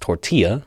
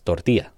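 First: The word is said in a plain English accent. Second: The word is said in a Spanish accent. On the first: "It's pronounced tortilla" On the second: "or in Spanish, more with less with an accent"

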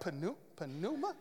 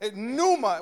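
First: The word starts with an audible P sound. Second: The word starts with no P sound. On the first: The speaker calls it wrong. "some of you were trying to pronounce it. You were like" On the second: The speaker calls it right. "The P is silent"

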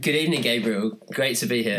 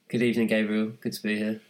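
First: It is said with more enthusiasm. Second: It is said flatly, with little enthusiasm.

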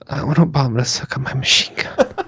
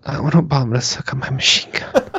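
First: It is said in a non-threatening way. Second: The same.

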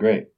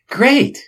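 First: Said flatly, without enthusiasm. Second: Said with exaggerated enthusiasm and energy. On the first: The speaker calls it wrong. "that great did not sound enthusiastic" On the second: The speaker calls it right. "more enthusiastic"

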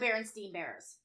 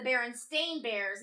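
First: The last syllable of the name rhymes with 'seen'. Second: The last syllable of the name rhymes with 'rain'. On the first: The speaker calls it wrong. "not the Berenstain Bears" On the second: The speaker calls it right. "Apparently, it's the Berenstain Bears"

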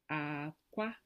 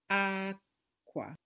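First: The pitch goes from low to high. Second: The pitch goes from high to low. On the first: It means eggs. "It's really difficult for me to feel like I'm doing a low tone" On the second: It means clothes. "clothes in Igbo is akwa, ... high, low"

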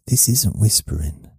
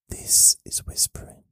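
First: It is spoken quietly with the voice. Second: It is whispered without using the voice.

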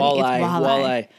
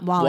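First: The word ends with an 'eye' sound. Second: The word ends with an 'ee' sound. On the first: The speaker calls it right. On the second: The speaker calls it wrong. "don't say Wally. It's not Wally"

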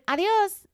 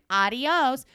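First: It is said with a native Spanish accent. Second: It is said with an English-speaker accent.

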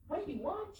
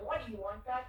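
First: It sounds interested and friendly. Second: It sounds annoyed and impatient.

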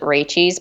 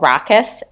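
First: The middle consonant sounds like 'ch'. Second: The middle consonant sounds like 'k'. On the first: This is how the spelling seems to read. The speaker calls it wrong. "like you would pronounce it Rachie's" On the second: This is the actual name of the wine. The speaker calls it right. "but it's called Rakkes"

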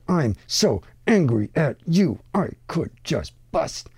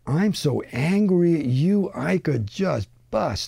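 First: The words come out choppy and separated. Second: The words flow smoothly together without breaks.

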